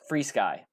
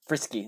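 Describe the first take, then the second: First: It starts with a long 'free' sound. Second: It starts with a short 'fris' sound. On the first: The speaker calls it right. "That's how the company calls it" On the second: The speaker calls it wrong. "It's not frisky. See, you're wrong on that one"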